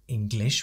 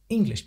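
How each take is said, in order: First: The stress is on the second syllable. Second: The stress is on the first syllable. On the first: The speaker calls it wrong. "We don't say English" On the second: The speaker calls it right. "The in in English is, is stronger than the glish"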